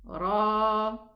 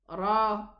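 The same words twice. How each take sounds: First: The vowel is held out longer. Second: The vowel is held briefly. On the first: "But with an alif" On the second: "without the alif? It's going to be short pronunciation"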